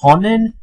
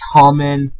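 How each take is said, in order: First: The middle consonant is an n sound. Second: The middle consonant is an m sound. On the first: The speaker calls it wrong. "if you say Conan, dude, you really gotta fix your pronunciation" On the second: The speaker calls it right. "I know you're supposed to say common"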